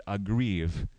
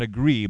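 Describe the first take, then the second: First: "aggrieve" said slowly, ending in a clear v; aggrieve, for contrast. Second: "agree" ending on the open vowel, no v; agree, for contrast. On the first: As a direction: stretch "aggrieve" and close it on the v. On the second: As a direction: say "agree" as the word to rule out. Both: Shown as a demonstration. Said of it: "Not agree, but aggrieve".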